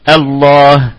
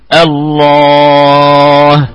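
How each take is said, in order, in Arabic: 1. تُمَدّ الحركة الطويلة مدًا قصيرًا، حركتين. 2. تُمَدّ الحركة الطويلة أطول مدّ، ست حركات. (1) "هذا بالقصر" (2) "إشباع ست حركات"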